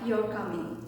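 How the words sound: The pitch stays flat and monotone. "sounds more uh, monotone"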